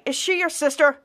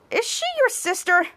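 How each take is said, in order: First: Said in the usual way. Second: Higher question. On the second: Retold or imitated. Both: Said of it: "Trent's like".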